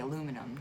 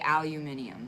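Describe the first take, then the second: First: It is said with four syllables, American style. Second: It is said with five syllables, British style. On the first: This is how it is said in America. "but we say aluminum" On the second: This is how it is said in England. "They say aluminium"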